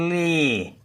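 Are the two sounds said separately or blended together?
blended. The two sounds are blended quickly into one syllable. "Hızlıca li diye okunuyor"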